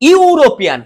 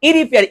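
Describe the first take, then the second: First: The word begins with a 'yoo' sound. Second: The word begins with an 'ee' sound. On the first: The speaker calls it right. "ইউ উচ্চারণ হয়ে যাচ্ছে একসাথে" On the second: The speaker calls it wrong. "এখানে কিন্তু ইরিপিয়ান না"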